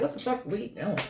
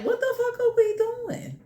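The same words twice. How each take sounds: First: Hushed, lower, puzzled voice of the universe; the universe muttering in disbelief; baffled universe. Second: Much higher, softer exasperated question; incredulous universe. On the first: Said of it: "The universe is looking like". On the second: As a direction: squeak it out in disbelief. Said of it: "it's like". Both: Retold or imitated.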